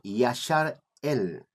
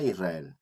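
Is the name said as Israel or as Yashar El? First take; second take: Yashar El; Israel. First: It is said as two parts, Yashar El. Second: It is said as the usual Spanish word Israel. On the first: The speaker calls it right. "Nosotros debemos pronunciar Yashar El" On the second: The speaker calls it wrong. "no se debe decir o pronunciar Israel"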